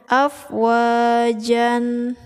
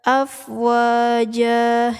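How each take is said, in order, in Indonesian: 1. Kata ini berakhir dengan bunyi n tambahan. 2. Kata ini berakhir dengan vokal a panjang.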